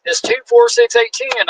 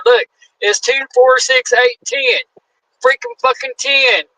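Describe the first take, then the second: First: Put-on high, slow count like to a child; patronising official counts to ten. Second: Slow, emphatic count ending on ten; triumphant recount. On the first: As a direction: spell it out like he's teaching a kid. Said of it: "He goes". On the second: Retold or imitated. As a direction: prove you can count, proudly. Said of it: "I said".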